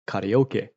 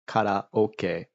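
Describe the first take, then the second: First: It is said with an English-style pronunciation. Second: It is said with a Japanese-style pronunciation. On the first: The speaker calls it wrong. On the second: The speaker calls it right.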